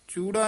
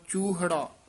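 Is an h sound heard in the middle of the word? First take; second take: no; yes. First: The word is said without an h sound. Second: The word is said with an h sound. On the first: The speaker calls it wrong. "ਚੂੜਾ ਨਹੀਂ ਕਹਿ ਦੇਣਾ" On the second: The speaker calls it right. "ਹਾਹਾ ਵੀ ਵਿੱਚ ਆ ਕੇ ਉਚਾਰਨ ਕਰਨਾ"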